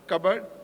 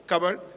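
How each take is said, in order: First: The word is clipped, ending on a consonant. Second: The same.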